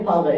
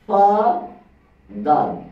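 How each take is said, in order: First: The word is said smoothly without a break. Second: The word is split into two separate syllables. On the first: "এই যে father" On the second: "আমরা কিভাবে উচ্চারণ করি?"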